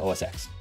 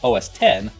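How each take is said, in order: First: The final part is said as the letter ex. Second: The final part is said as the number ten. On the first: "So they must pronounce it OSX" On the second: "pronouncing it OS 10 could potentially infringe on copyright"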